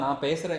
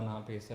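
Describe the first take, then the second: First: It is spoken loudly with more volume. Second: It is spoken softly and lightly. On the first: This is how it was dubbed later. The speaker calls it wrong. "Dubbing കുറച്ച് ലൗഡാണ്" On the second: This is how it was acted on set. The speaker calls it right. "വളരെ ലൈറ്റായിട്ട് സംസാരിച്ചിട്ട്"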